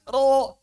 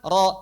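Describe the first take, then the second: First: The syllable is said with exaggerated, heavy force. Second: The syllable is said lightly, like normal speech. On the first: The speaker calls it wrong. "Baca Quran, ... Nggak begitu" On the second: The speaker calls it right. "Ro gimana?"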